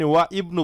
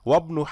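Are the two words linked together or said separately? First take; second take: separate; linked. First: The words are separate, with an 'i' vowel. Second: The words are linked, with the 'i' dropped. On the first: The speaker calls it wrong. "আপনি ওয়া ইবনু বলবেন না" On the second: The speaker calls it right. "মিলেই পড়ার সময় হামজাটা আপনি সাইলেন্ট করে দিবেন"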